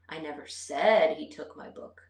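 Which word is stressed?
said. The stress is on the word said. I implied it without saying it aloud. "I might not have verbally said it"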